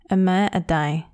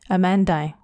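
First: It is said slowly, all vowels full. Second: It is said fast, with weak vowels.

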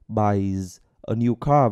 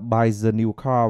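First: The words are said separately without linking. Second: The words run together with linked sounds. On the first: "mình có nối đâu" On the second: "vào luôn"

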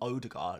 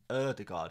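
First: The name starts with a plain English 'oh' vowel. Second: The name starts with a rounded 'er'-like vowel. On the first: The speaker calls it wrong. "which isn't Odegaard" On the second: The speaker calls it right. "it's Erdegaard"

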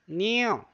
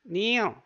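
The two takes are said the same way.

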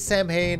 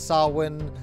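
First: The word is pronounced in an anglicized way. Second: The word is pronounced in the Gaelic way. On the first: The speaker calls it wrong. "they pronounce it as Samhain" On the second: The speaker calls it right. "It's actually Samhain"

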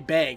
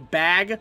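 First: The vowel is said the Minnesota way. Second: The vowel is said the general way.

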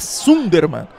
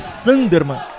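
First: The first syllable is read with a Portuguese 'u'. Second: The first syllable is read like English 'san'. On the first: The speaker calls it right. "é Sunderman" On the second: The speaker calls it wrong. "o nome do treinador não é Sunderman"

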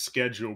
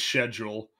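First: It is said with an American pronunciation. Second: It is said with a British pronunciation. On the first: "American pronunciation is schedule" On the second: "British pr- pronunciation is schedule"

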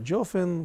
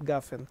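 First: The word begins with a j sound. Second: The word begins with a hard g sound. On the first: "именно джофен" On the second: "они не говорят гафен"

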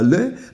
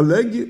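First: The word ends on a vowel, no g. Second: The word ends with a sounded g. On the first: The speaker calls it right. "l'élégance doit nous pousser à lai" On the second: The speaker calls it wrong. "on tolère l'aigle"

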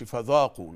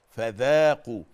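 First: It is said without a smile, sounding heavier. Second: It is said with smiling, spread lips, sounding lighter. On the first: The speaker calls it wrong. "ما نقولش فذاقوا" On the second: The speaker calls it right. "وإحنا مبتسمين كده فذاقوا"

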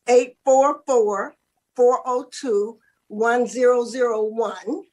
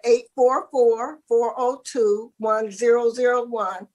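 First: The number is said slowly. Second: The number is said fast.

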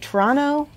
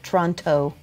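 First: The last T is soft or dropped. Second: The last T is clearly pronounced. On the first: "where you don't emphasize the last T" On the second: "I always emphasize the last T probably"

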